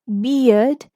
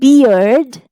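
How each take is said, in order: First: British accent, with no R sound. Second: American accent, with the R pronounced. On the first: "British English" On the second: "American English with the R sound"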